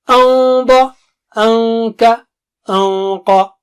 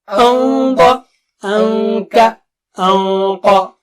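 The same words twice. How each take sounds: Both takes have the same delivery.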